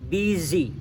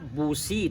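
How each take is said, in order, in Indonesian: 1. Vokal pertama bunyinya seperti 'i'. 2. Vokal pertama bunyinya seperti 'u', sesuai tulisannya. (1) "Itu bacanya I" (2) "tulisannya busi tulisannya"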